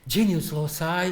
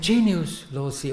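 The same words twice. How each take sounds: First: The phrase has an English-style pronunciation. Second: The phrase has a Latin-style pronunciation.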